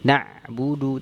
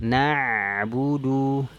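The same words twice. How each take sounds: First: The throat sound is cut off abruptly. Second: The throat sound flows on without a break. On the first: The speaker calls it wrong. "Jangan na'budu... Tidak" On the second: The speaker calls it right. "Tapi dialirkan"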